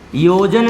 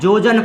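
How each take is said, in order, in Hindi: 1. शब्द की शुरुआत y की ध्वनि से होती है। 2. शब्द की शुरुआत j की ध्वनि से होती है। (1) "योजन लिखा होता है" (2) "अशुद्ध है"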